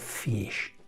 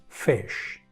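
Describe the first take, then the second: First: The vowel is a clear, tense Spanish i. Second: The vowel is short and lax, near e. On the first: The speaker calls it wrong. "No digo fish" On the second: The speaker calls it right. "¿Veis cómo no estoy pronunciando una I tan clara?"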